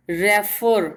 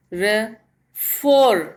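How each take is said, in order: First: Said in the usual way. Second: refer slowly as short रे, pause, strong long फर; stress on last syllable. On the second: Shown as a demonstration. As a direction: break refer in two and lean on फर. (Refer में रुककर फर पर ज़ोर) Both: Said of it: "stress हमारा last वाले syllable पे हो".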